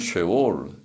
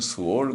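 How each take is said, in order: First: The first syllable is a short 'she' sound. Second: The first syllable is a reduced 'seu' sound. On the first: This is the original Hebrew form. "히브리 말로는 쉐올" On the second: This is the form used in the Korean Bible. "우리 성경에는 스월"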